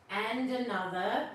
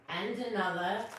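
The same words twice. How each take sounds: The two takes are said the same way.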